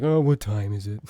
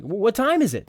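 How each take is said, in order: First: "Oh, what time is it?" lower, no lift; flat wrong question. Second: Higher, louder natural question; rising question. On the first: Coach demos the wrong low question read. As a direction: ask it low and down, oddly. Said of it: "You never say". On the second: Coach demos a natural question tune. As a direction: ask it brightly, going up. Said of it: "when you're doing a question". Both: Shown as a demonstration.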